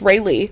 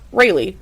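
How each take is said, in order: First: The name is said as two separate words. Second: The name is said as one single word. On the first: The speaker calls it right. "like two separate words" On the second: The speaker calls it wrong. "not Rayleigh"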